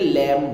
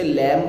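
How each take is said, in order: First: The word ends on the m sound. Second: A b sound is heard at the end. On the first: The speaker calls it right. "लैम बोलते हैं" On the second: The speaker calls it wrong. "उसे लैम्ब नहीं बोलते"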